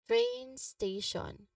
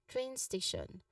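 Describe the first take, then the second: First: The phrase is said slowly and carefully. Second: The phrase is said at a natural pace. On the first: "read each term slowly" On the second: "and then more naturally"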